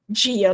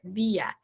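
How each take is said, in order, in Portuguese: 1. O d é forte. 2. O d é fraco. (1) "o nosso dia é muito forte" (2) "se a gente falasse essa palavra em espanhol"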